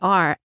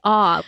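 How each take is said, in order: First: The r sound at the end is pronounced. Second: The r sound at the end is dropped. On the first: The speaker calls it right. "you have to say R" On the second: The speaker calls it wrong. "you can't say ah"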